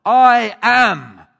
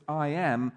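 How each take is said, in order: First: "I am" shouted high and very loud, both words drawn out; emphatic I AM in capitals. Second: Said in the usual way. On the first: Shown as a demonstration. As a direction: boom out "I am" as if in capitals and bold. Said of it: "in capitals and in bold". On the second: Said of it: "made emphatic in two".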